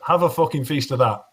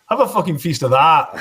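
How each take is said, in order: First: It is said in a plain, neutral accent. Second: The word 'that' has a loud Scottish-sounding vowel.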